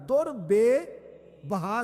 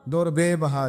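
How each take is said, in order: First: The words are grouped as dur, then bebaha. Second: The words are grouped as durbe, then baha. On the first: It means priceless pearls or gems. The speaker calls it right. "दुर अलहदा है और बेबहा।" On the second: It refers to a word 'durbe' that does not exist. The speaker calls it wrong. "लफ्ज दुर्बे है ही नहीं।"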